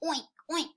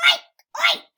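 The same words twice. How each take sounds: First: Small, high little oinks; quiet pig oink. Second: Very high, loud oinks; loud pig squeal. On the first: Pig after the farmer's scolding, small high oinking. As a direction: oink daintily without the volume. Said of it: "they quietly made their noises". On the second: Teacher reads the noisy pig to children, high loud oinking. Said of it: "went the pig". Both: Acted.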